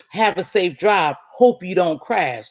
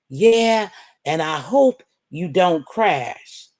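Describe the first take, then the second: First: Said in the usual way. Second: Slow, drawn-out fake well-wishing; mocking sweet quote. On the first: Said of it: "They wish that I didn't crash". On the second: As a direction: drag out "and I hope you don't crash" with sarcastic sweetness. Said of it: "They had a nerve to write me".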